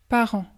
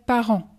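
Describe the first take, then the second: No difference in how they are said.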